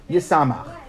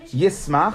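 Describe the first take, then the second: First: "yisamach" in three syllables, yi-sa-MACH; read form. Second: "yismach" in two syllables, yis-MACH; written form. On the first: Teacher showing how it is read, "yisamach" as yi-sa-MACH. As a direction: say "yisamach" with an added a after the s. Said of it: "or yisamach with a shin". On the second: Teacher showing the written word, "yismach" as yis-MACH. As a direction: say "yismach" with s running straight into m. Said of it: "why do we spell". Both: Shown as a demonstration.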